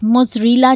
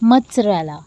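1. सिर्फ़ z की आवाज़, पहले कोई t नहीं। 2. हल्की t की आवाज़ s से पहले आती है। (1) "ये बिल्कुल गलत है" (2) "इसमें हम थोड़ी सी टी की साउंड को लेके आएंगे"

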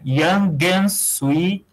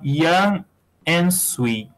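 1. O G emenda direto no "and" seguinte. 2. O G fica separado do "and" seguinte. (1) "Você pode juntar esse G, porque o G junta com A" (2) "Ou então"

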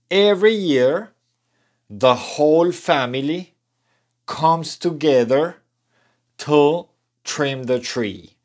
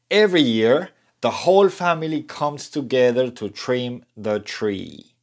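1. La oración se dice a un ritmo más lento. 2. La oración se dice a un ritmo más rápido. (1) "Vamos a intentarlo" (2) "Ahora digámoslo más rápido"

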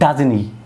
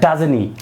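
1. "doesn't" এ t ধ্বনিটি বাদ যায়। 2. "doesn't" এ t ধ্বনিটি বাদ যায়।

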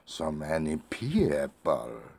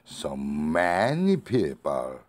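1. "people" 단어가 더 높고 세게 발음됩니다. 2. "many" 단어가 더 높고 세게 발음됩니다. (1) "people을 강조하고 싶으면" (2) "many를 강조하고 싶으면"

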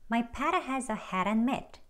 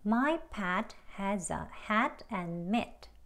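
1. 단어들이 한 흐름으로 이어져요. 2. 각 단어를 따로, 또박또박 발음해요. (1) "대화 발음으로 ... 흐르는 대로 쭉" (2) "책 발음이요"

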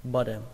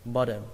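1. Phụ âm ở giữa là âm D. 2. Phụ âm ở giữa là âm D.

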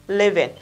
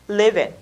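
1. Hai từ được nối thành một. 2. Hai từ được nối thành một.

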